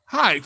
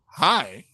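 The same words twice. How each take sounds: First: Lightly imitated nurse's greeting. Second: Low, softened little "hi"; smitten patient. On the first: Nurse answering the patient, lightly voiced hi. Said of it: "And she goes". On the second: Retold or imitated. Patient to the pretty nurse walking in, lightly acted low hi. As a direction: greet her in a lowered voice. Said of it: "I'm like".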